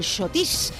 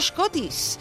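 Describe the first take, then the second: First: The word begins with a sneeze-like sh sound. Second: The word begins with an s-k sound. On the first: This is how people in Madrid said it. "se debería pronunciar a modo de estornudo. Sería algo así como el Shotish" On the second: This is the dance's original name. "Se llama Scottish"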